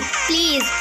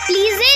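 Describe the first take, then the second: First: The word ends without a final vowel. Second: A vowel is sounded at the end. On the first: The speaker calls it right. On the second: The speaker calls it wrong.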